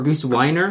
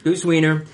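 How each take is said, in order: First: Weiner said as WY-ner, rhyming with liner; mispronounced name. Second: Wiener said as WEE-ner, with a long E; corrected name. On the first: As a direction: Weiner with a long I sound, WY-ner. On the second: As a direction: Wiener pronounced WEE-ner, rhyming with leaner. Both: Real, not acted. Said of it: "That's, that's Wiener".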